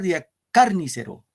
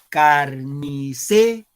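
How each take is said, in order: First: The stress falls on the syllable car. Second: The stress falls on the syllable ce. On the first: The speaker calls it wrong. "Si fuera en car" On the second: The speaker calls it right. "en se, claro"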